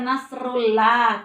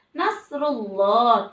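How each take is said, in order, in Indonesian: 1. Bunyi l pada -llah itu tipis dan ringan. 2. Bunyi l pada -llah itu tebal dan berat. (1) "tidak boleh dibaca seperti itu" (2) "harus dibaca tafkhim, artinya ditebalkan"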